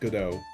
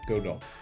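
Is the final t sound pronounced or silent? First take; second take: silent; pronounced. First: The final t sound is left silent. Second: The final t sound is clearly pronounced. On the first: "and then you pronounce it Godot" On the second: "You can also pronounce it Godot. Because there is a T"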